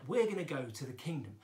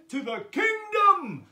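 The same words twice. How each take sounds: First: Said in the usual way. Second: Loud, high call with a drawn-out end; rousing call. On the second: Pretend. Teacher rallying children to the kingdom, rousing shout. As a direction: call it out big and long.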